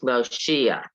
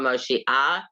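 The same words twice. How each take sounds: First: The stress is on the second-to-last syllable. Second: The stress is on the last syllable. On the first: The speaker calls it right. "accent is on the next to the last syllable" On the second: The speaker calls it wrong. "the accent is not on Moshiach"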